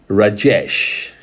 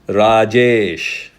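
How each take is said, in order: First: The name is said with a Western pronunciation. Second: The name is said with an Indian pronunciation. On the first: This is how people in the West say it. "That's how most of the Westerners use" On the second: This is how people in India say it. "In India, we use"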